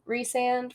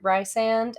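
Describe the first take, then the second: First: The first syllable has an 'ee' vowel. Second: The first syllable has an 'eye' vowel. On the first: This is the official pronunciation. "technically that is correct" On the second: This is the reader's own preferred pronunciation. "I preferred Rysand"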